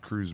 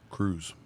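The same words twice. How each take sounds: First: The name is said with a plain English accent. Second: The name is said with a Spanish accent.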